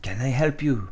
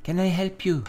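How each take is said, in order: First: Put-on French accent, mannish take; Villanelle. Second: Put-on higher, feminine take on a French accent; Villanelle. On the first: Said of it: "It's more of a man". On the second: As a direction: offer help in a high French accent. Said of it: "gonna give Villanelle a French accent".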